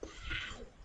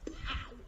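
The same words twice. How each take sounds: First: It is said with strong emotion and energy. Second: It is said plainly, without extra emotion.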